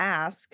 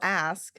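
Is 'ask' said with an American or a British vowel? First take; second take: American; American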